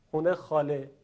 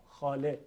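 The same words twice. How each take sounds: First: خونه خاله with rounded xune and xɔle; colloquial xune xale. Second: خاله said with a clear open xɑle; careful xale. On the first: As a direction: say خونه خاله in everyday Tehran speech. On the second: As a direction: pronounce خاله slowly with a plain long a. (تلفظ دقیق خاله) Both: Shown as a demonstration.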